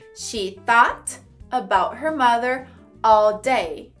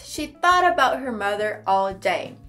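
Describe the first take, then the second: First: It is said slowly, word by word. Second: It is said at natural speed, words linked.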